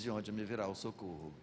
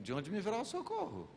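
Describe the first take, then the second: First: It is said as a flat statement. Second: It is said as a question.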